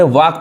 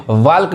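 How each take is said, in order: First: वाक with no l, "waak"; वाक as one open vowel then k; silent L. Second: वाल्क with the l sounded; वाल्क misread as "waa-lk"; wrong pronunciation. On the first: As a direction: say वाक dropping the l. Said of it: "यहाँ भी एल क्या है". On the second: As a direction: say वाल्क as "walk" with an audible l. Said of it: "गलत होगा पढ़ना". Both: Shown as a demonstration.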